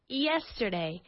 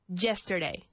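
First: The word begins with a Y sound. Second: The word begins with a J sound. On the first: The speaker calls it right. "We need to treat it with the sound of an I" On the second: The speaker calls it wrong. "they say"

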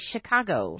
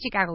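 First: The word begins with an 'sh' sound. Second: The word begins with a 'ch' sound. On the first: The speaker calls it right. "we say Chicago" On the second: The speaker calls it wrong. "in English we don't say Chicago"

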